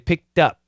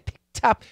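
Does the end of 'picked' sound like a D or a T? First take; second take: D; T. First: The end of picked sounds like a D. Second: The end of picked sounds like a T. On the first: The speaker calls it right. "we say picked up. Picked up with a D" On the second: The speaker calls it wrong. "We don't say picked up"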